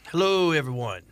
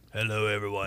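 First: It is said in his normal voice. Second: It is said in a deeper voice.

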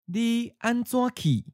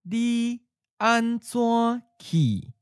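First: The phrase is said at natural speed. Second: The phrase is said slowly. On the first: "First natural speed" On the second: "and then slowly"

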